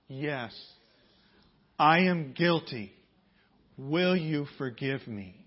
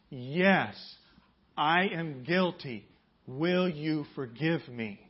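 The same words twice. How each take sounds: First: Slow, louder, word by word for the congregation to repeat; slow call and response. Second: Slower still, louder, leaning on each word; slow call and response. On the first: Pastor leading the congregation in a repeated confession, slow and louder. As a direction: lead the room through it slowly. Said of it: "Repeat after me". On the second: Pastor repeating the confession with the congregation, slow and louder. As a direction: say it again, slower and firmer. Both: Shown as a demonstration.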